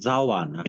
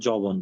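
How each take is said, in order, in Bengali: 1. শব্দে তিনটি ধ্বনিভাগ, শেষ হয়েছে -na দিয়ে। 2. শব্দে দুটি ধ্বনিভাগ, শেষ হয়েছে -bon দিয়ে। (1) "শুদ্ধ উচ্চারণ হচ্ছে যে আহ, জাওয়ানা" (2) "বাংলাতে এটা অনেকে যবন বলে"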